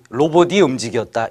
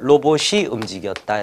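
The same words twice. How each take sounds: First: The linked consonant sounds like a d. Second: The linked consonant sounds like an s. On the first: The speaker calls it wrong. "이렇게 발음하는 사람은 없습니다" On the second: The speaker calls it right. "이게 더 편하죠"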